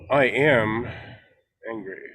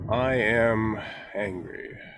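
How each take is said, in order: First: The word "angry" is short and softer. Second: The word "angry" is drawn out long.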